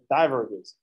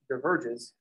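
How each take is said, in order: First: The stress is on the first syllable. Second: The stress is on the second syllable. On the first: "we like emphasize the die" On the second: "say the word diverges"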